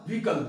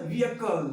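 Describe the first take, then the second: First: Vehicle squeezed into "VEE-kul"; wrong vehicle pronunciation. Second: Vehicle in three syllables, "VEE-uh-kul"; slow "vee-a-kal" for vehicle, H silent; correct vehicle pronunciation. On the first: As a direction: say vehicle with no middle vowel, "vee-kal". (vehicle को "वीकल" बोलें) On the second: (vehicle को धीरे से "वी-अ-कल" बोलें) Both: Shown as a demonstration. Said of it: "it's not a vehicle".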